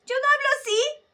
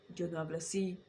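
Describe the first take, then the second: First: High voice demo. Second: Low voice demo. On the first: Voice teacher contrasting a high range, much higher and louder. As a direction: jump up very high and loud. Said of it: "Hablo al medio". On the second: Voice teacher showing a low range, deliberately low. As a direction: drop the voice low and soft. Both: Shown as a demonstration.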